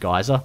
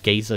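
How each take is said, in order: First: The word does not sound like 'geezer'. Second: The word sounds like 'geezer'. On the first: The speaker calls it right. "I always pronounce it geyser" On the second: The speaker calls it wrong. "sounds like you're talking about an old person"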